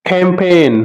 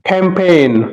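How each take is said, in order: Both takes have the same delivery.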